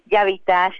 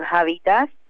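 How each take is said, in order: First: The word is pronounced the Hungarian way. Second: The word is pronounced the Spanish way. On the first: It means repair. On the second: It sounds like the word for a kind of garment.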